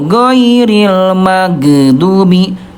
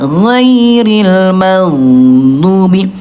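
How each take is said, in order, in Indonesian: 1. Bunyi gh dipotong pendek dengan mantul. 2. Bunyi gh lembut dan mengalir terus. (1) "Yang ke satu" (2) "Bunda yang betul yang kedua ya"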